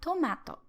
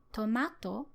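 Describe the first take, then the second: First: Tomato as Osaka friends say it; Osaka pitch accent. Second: Tomato in her own regional Japanese pitch, contrasted with Osaka's; her own pitch accent. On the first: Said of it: "and they say tomato". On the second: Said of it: "I say tomato". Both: Shown as a demonstration.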